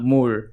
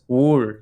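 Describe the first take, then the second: First: The word begins with an M sound. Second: The word begins with a W sound. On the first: The speaker calls it right. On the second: The speaker calls it wrong.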